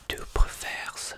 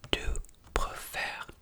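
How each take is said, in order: First: The final S sound is pronounced. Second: The final S sound is silent. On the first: The speaker calls it wrong. "On ne dit pas tu préfères" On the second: The speaker calls it right. "je ne dis pas le S"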